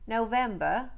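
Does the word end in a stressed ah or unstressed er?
unstressed er. It ends in an unstressed er syllable.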